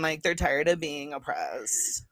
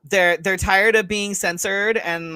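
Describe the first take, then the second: First: Mock whisper, slow and breathless. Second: Said in the usual way. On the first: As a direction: breathe it out slowly, mocking. Mocking the supporters' complaint.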